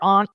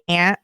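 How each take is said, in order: First: It is said in a Boston accent. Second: It is said without a Boston accent. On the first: This is how a friend from Boston says it. "she's East Coast" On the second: This is how the speaker herself says it. "I say aunt"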